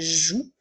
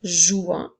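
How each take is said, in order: First: The ending is silent, ending on plain 'ou'. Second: The ending is sounded as a nasal vowel. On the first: The speaker calls it right. "mais bien" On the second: The speaker calls it wrong. "nous ne dirons pas"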